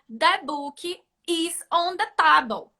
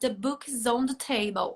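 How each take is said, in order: First: It is said with a Brazilian accent. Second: It is said with an American accent.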